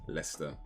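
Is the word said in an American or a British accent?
British. British accent, with the sounds run together. "we we would say Leicester"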